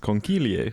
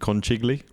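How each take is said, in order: First: It is said with the Italian pronunciation. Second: It is read as spelled, English style. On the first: The speaker calls it right. "I googled the pronunciation and it's conchiglie" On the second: The speaker calls it wrong. "You'd probably look at it and see conchiglie"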